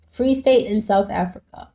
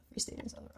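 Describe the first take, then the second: First: Said in the usual way. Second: "Free State in South Africa" whispered, much softer; whispered repeat. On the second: Real, not acted. Rereading a viewer's location to himself in a whisper.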